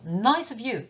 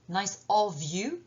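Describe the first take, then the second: First: The word 'of' is weak and linked to 'nice'. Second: The word 'of' is full, slower and stressed. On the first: "on fait la liaison" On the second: "si j'utilise la forme pleine"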